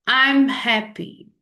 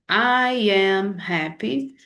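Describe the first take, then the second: First: 'I am' is contracted into one syllable. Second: 'I am' is said as two separate words. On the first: "a contração faz com que ... se torne mais fluida" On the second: "aquela forma que a gente disse"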